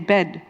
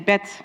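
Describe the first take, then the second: First: It ends with a voiced d sound. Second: It ends with a voiceless t sound.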